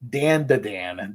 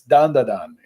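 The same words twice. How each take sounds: First: The name is said with anglicized English vowels. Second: The name is said with Japanese-style vowels. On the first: The speaker calls it wrong. "That is the whitest thing I have ever heard" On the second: The speaker calls it right. "it's Dan da Dan. It's it's not that complicated"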